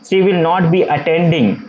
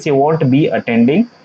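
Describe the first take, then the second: First: Will not is said as two full words. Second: Will not is contracted into one word, won't. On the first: This form is used more in writing. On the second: This form is used more in conversation.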